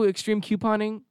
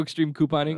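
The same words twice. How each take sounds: First: Couponing said as KYOO-poning; Couponing with a y-glide after the k; slipped pronunciation. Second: Couponing said as KOO-poning; Couponing with a plain "koo", no y-glide; corrected pronunciation. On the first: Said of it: "I just said it". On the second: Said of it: "No, do you know the show". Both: Real, not acted.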